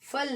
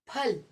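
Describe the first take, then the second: First: It begins with an f sound. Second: It begins with an aspirated p sound. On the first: The speaker calls it wrong. "फल नहीं कहेंगे" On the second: The speaker calls it right. "तो हम इसे कहेंगे फल"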